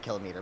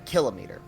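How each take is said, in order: First: The stress is on the second syllable. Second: The stress is on the first syllable. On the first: This is the common but irregular way people say it. "hear people say kilometer" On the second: This follows the usual pattern of kilo words. "you would expect a kilometer, ... usually it's kilo, like kilobyte"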